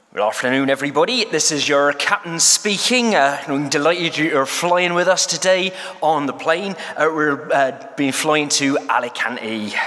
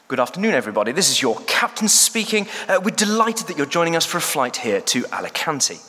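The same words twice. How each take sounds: First: A broad West Country pilot, warm and rolling; West Country accent. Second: Clipped, polished English captain announcement; posh pilot voice. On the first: Pilot greeting passengers over the intercom, in a West Country accent. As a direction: play a West Country captain on the intercom, a bit hammed. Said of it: "an appalling attempt at a West Country accent".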